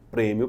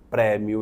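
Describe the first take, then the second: First: The stressed vowel is pronounced closed. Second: The stressed vowel is pronounced open. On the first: The speaker calls it right. "eu digo prêmio para dizer que ela é fechada" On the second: The speaker calls it wrong. "eu não digo prêmio"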